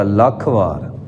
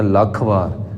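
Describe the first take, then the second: First: ਲੱਖ said with a held, doubled l; ਲੱਖ with the ll held, not a light lakh. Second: Said in the usual way. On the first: Shown as a demonstration. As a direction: press the adhak into ਲੱਖ. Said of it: "ਲੱਲੇ ਉੱਤੇ ਅਧਿਕ ਪਏਗਾ". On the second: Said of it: "ਸਿੱਧੀ ਜਟਕੀ ਬੋਲੀ ਵਿੱਚ ਬੋਲਦੇ ਹਾਂ".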